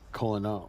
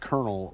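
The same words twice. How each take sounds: First: The word is said without an R sound. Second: The word is said with an R sound. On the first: The speaker calls it wrong. "and not Colonel" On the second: The speaker calls it right. "pronounced Colonel with"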